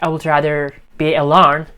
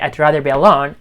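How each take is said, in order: First: 'I would' is said as two full words. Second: 'I would' is shortened to 'I'd'. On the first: "instead of saying like" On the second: "you can say"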